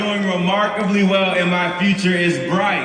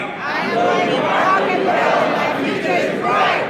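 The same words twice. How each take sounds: First: Call and response, loud. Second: Many voices chanting together; chanted, the whole room repeats it; crowd chanting. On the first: Shown as a demonstration. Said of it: "I want everybody to repeat after me". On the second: Real, not acted. Crowd repeats the line back.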